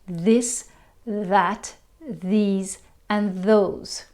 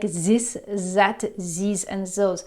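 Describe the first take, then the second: First: Each word begins with a soft th sound. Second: Each word begins with a buzzing z sound. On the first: The speaker calls it right. "it's a very common sound" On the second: The speaker calls it wrong. "pronouncing this th with a z, like"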